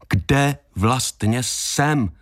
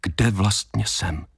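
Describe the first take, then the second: First: "Kde vlastně jsem" word by word, long pauses between; slow, emphatic question. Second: Said in the usual way. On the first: A narrator's reading. Same question repeated, insistent.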